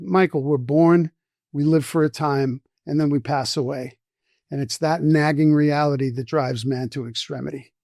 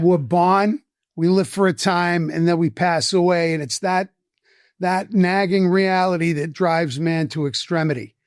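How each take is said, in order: First: Said in the usual way. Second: Lightly voiced Boston accent; a profundity delivered in a Boston accent. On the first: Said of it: "I'm not gonna say it in this accent". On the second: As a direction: quote it with a Boston accent, "born" as "bahn". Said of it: "in a heavy Boston accent".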